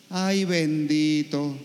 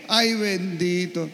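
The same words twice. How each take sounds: First: Slow, drawn-out pity over the ay; sighing ay, bendito, stretched out; mock pity for the young seminarian. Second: Mimicking the lady's pitying ay; imitating pity. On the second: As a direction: sigh it like a sorry old lady. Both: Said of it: "Le dio pena conmigo".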